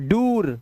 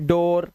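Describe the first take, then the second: First: The vowel sounds like a long 'oo'. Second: The vowel sounds like 'oh'. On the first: The speaker calls it wrong. "नहीं, ये दोनों ही नहीं है" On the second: The speaker calls it right. "ओ की आवाज भी होती है डबल ओ के अंदर"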